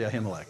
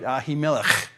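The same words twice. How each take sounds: First: The name is said with a simplified, everyday pronunciation. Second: The name is said with a careful, fuller pronunciation. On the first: "I can't do that too much, so I'll say" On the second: "if you want to say it right"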